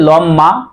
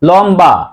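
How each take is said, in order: First: The middle has a doubled m with no b. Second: The middle has a clear b after m. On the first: The speaker calls it wrong. "আমরা কি বলছি যে লম্মা" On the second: The speaker calls it right. "ব এর উচ্চারণ লম্বা"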